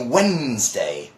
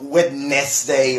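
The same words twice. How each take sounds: First: Some written letters of the word are silent. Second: Every written letter of the word is sounded. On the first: The speaker calls it right. "It's actually Wednesday. Just Wednesday" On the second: The speaker calls it wrong. "It's not Wednesday or something like that"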